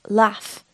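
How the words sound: It is said with a northern English accent. "which is normally seen in the north of England"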